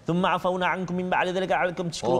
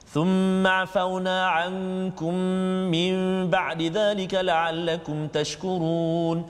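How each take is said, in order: First: It is very fast and sounds are swallowed. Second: It is fast but every sound is kept. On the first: The speaker calls it wrong. "Kalau laju sangat" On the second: The speaker calls it right. "bacaan cepat macam tu"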